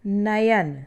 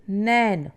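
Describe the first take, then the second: First: नयन with the y clearly heard, na-yan; correct form nayan. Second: नैन said slowly as one syllable nain; wrong form nain. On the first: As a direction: pronounce नयन in two syllables. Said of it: "नयन शब्द शुद्ध है". (नयन, य साफ़ सुनाई दे) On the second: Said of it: "नैन अशुद्ध है". (नैन धीरे, एक मात्रा) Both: Shown as a demonstration.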